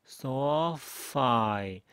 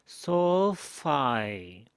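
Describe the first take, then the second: The two takes are said the same way.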